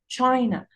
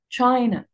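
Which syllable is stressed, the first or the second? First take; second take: first; first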